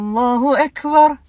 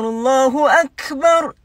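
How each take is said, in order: First: The A vowels are muffled, mouth barely open. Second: The A vowels are open and clearly pronounced. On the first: The speaker calls it wrong. "Allahu Akbar dia bilang" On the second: The speaker calls it right. "padahal harusnya Allahu Akbar"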